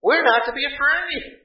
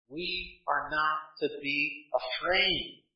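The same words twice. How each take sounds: First: Firm preacher's reply. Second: Softer and slower, gently settling the point; a calm, quiet assurance to the fearful; soft reassurance. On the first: Pastor answering objection, repeated later. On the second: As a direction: lay it down quietly and slowly. Same reply repeated softly. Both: Acted.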